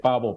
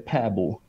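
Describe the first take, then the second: First: The name is said with plain Spanish vowels. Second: The name is said with Swedish vowel sounds. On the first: "vamos a decirle pavo para hacerlo más fácil" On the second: "en el sueco de su país de nacimiento, su nombre es Svante Pääbo"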